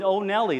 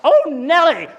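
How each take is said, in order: First: Said in the usual way. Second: Big high yell, much louder; yelled Oh Nelly. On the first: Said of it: "I grew up with". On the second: Retold or imitated. Dad slapping his kid's knee on a road trip, loud yell. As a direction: shout it out while slapping a knee. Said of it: "slap the knee ... and yell".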